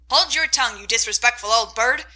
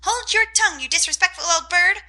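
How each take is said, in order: First: Louder stern scold at the bird; old aunt scolds her parrot; scolding old lady. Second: Very high, loud parrot copy of the scold; parrot mimicking. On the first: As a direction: snap at the parrot like a cross aunt. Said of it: "Aunt March scolds the parrot". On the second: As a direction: squawk the words back like a mocking bird. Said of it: "cried Polly". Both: A narrator's reading.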